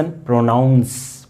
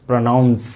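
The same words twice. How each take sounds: First: प्रोनाउंस stretched out slowly; slow careful word. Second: Said in the usual way. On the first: Shown as a demonstration. Teacher showing students how प्रोनाउंस sounds, slow. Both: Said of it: "इसमें ओ नहीं है".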